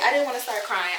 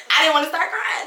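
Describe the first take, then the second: First: Said in the usual way. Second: Higher, louder, insisting on the words; admitting to viewers she nearly cried, emphatic; emphatic admission. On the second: Real, not acted. Emphatic confession. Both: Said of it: "I'ma say it".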